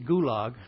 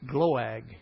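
First: A vowel separates the G and the L. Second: The G runs straight into the L. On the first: The speaker calls it wrong. "I say Gulag. ... I never can say it right" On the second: The speaker calls it right. "It's Gloag"

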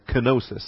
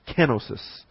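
First: The stress is on the second syllable. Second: The stress is on the first syllable. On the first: The speaker calls it wrong. "I usually mispronounce it when I say kenosis" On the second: The speaker calls it right. "the accent's on the first syllable, so it's actually kenosis"

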